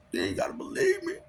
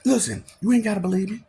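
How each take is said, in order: First: High shouted repeat. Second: Said in the usual way. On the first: Real, not acted. Daring listeners who doubt him, cracking high shout. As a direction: yell it out, voice breaking high.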